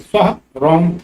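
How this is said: A short pause separates the two words. It asks the deity for protection. The speaker calls it right. "फिर विराम है, रुकना है जरा सा"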